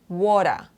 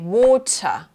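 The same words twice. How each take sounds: First: The middle T is softened into a D sound. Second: The middle T is crisp and strongly released. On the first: The speaker calls it wrong. "not water don't change it to the D sound" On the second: The speaker calls it right. "you say water"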